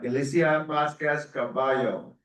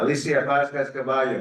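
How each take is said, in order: First: The name is said in a Spanish accent. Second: The name is said without a Spanish accent.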